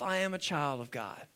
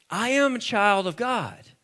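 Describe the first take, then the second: First: Low, soft personal declaration; hushed affirmation. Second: Said in the usual way. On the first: Real, not acted. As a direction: say it quietly, as if to yourself. Models line for congregation to repeat.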